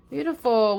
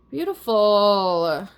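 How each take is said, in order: First: Said in the usual way. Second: Slow, drawn-out "Beautiful" ending on a rising lilt. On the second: Real, not acted. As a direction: stretch "Beautiful" out slowly, rising at the end. Savoring the reading's final card.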